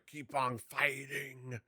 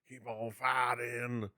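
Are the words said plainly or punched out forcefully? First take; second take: forcefully; plainly. First: Each word is sharply enunciated and punched out. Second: The words are said plainly, without extra force. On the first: "it was like" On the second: "as opposed to just going"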